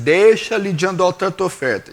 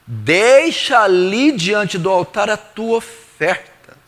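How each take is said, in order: First: Said in the usual way. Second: Slow, drawn-out "Deixa", each phrase weighted to "oferta"; emphatic quote. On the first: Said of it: "Por que que ele diz assim". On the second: Acted. Preacher quoting Jesus for attention, "Deixa" slow and emphatic. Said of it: "presta atenção".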